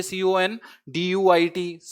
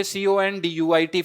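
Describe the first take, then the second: First: Each letter drawn out slowly; slow spelling. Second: Said in the usual way. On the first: Shown as a demonstration. Teacher spelling conduit slowly for students to memorize. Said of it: "फिर से याद कीजिए". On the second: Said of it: "इसकी spelling को देख लीजिए".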